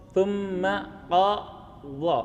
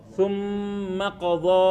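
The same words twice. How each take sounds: First: "Tsumma qadha" spoken very slowly, "tsumma" held; slow spoken model. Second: Slow chanted "Tsumma qadha"; sung, slow recitation. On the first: Teacher repeats the verse spoken for a student, very slow. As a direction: lay the words out slowly without tune. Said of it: "Lidahnya di". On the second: Teacher models the verse, slow chant. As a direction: draw it out in chant. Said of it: "huruf dha-nya". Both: Shown as a demonstration.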